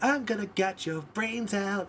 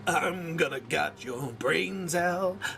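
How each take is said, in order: First: It is said in a sweet, happy tone. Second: It is said in an angry tone. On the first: "singing it in a beautiful tone" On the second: "you gotta go angry"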